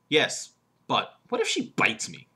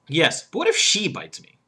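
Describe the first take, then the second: First: The stress is on "bites". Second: The stress is on "she".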